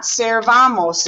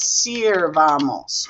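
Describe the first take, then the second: First: Servamos with an E in the first syllable; wrong vowel E. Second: Sirvamos with an "ee" sound in the first syllable; stretched sirvamos, a clear I in "sir"; I vowel. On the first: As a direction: say servamos, opening on "ser". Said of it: "It's not servamos". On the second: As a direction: say sirvamos slowly, opening on "seer". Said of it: "with an I right there". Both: Shown as a demonstration.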